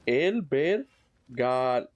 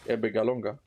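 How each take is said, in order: First: It is said slowly. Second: It is said quickly.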